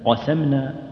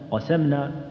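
No difference in how they are said.

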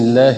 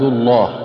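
First: The l sound is light and thin. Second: The l sound is heavy and full. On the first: "والترقيق مثل بسم الله الرحمن الرحيم" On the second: "والتفخيم مثل قال إني عبد الله"

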